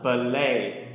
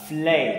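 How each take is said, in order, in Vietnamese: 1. Một nguyên âm được thêm vào giữa p và l. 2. Từ này bắt đầu bằng âm giống f. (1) "lại đọc thêm một âm tiết nữa" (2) "các bạn lại đọc là flay"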